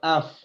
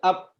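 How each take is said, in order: First: The word ends with an F sound. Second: The word ends with a P sound. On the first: The speaker calls it right. "Ini af pakai F" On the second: The speaker calls it wrong. "kalau up pakai P"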